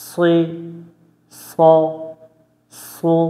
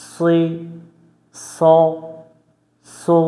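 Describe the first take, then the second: The two takes are said the same way.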